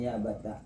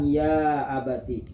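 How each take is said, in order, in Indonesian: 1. Suku kata terakhir diakhiri dengan vokal 'a'. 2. Suku kata terakhir diakhiri dengan vokal 'i'. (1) "fathutta ya abata" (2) "Mengganti iya-nya menjadi ta yang dikasrokan"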